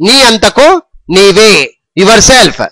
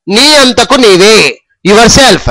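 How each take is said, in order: Both takes have the same delivery.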